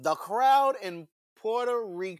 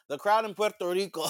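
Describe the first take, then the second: First: Puerto Rico is said with English pronunciation. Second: Puerto Rico is said with Spanish pronunciation. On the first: The speaker calls it wrong. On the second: The speaker calls it right.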